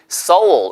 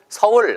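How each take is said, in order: First: Seoul is said with an English-style pronunciation. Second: Seoul is said with a native Korean pronunciation. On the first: This is how foreigners say the name. "우리나라 사람이 서울 이렇게 하지 않고" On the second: This is how locals say the name. "서울 하듯이요"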